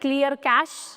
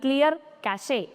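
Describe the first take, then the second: First: Cache ends in a plain 'sh' sound. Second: Cache ends with an extra 'ay' syllable. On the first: The speaker calls it right. "आता है ना clear कैश" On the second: The speaker calls it wrong. "ना कि clear कैशे"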